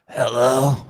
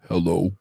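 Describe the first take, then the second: First: A woman's raspy, smoky voice says it. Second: A man's voice, Bubba, says it.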